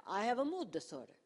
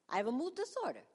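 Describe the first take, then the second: First: Mock Italian accent. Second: High, indignant Italian-style outburst; mock Italian accent. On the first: Patient repeating the diagnosis in disbelief, mock Italian accent. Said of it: "I'm not even Italian". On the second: Patient reacting to the psychiatrist's diagnosis, mock Italian accent. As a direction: exclaim it in a hammed-up Italian accent. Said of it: "Why am I talking like this?".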